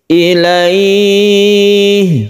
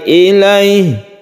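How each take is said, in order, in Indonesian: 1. Vokalnya dibaca panjang. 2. Vokalnya dibaca sangat pendek. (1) "panjangkan ini boleh sampai tiga alif" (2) "pendek sekali ilaih. Nah itu belum betul"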